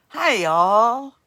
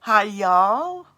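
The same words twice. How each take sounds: First: Loud, drawn-out southern hi y'all; American accent try. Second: Loud southern twang on hi y'all; second go at a Southern drawl; American accent try. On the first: Host tries an American accent for viewers, loud twang. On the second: Host repeats her American accent attempt, drawled. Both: Shown as a demonstration. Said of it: "Does that sound American?".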